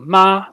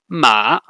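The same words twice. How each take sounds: First: The pitch stays high and level. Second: The pitch dips low and then rises. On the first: The word means mother. "which is a high tone for the segment ma" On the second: The word means horse. "which means horse and is a low dipping tone"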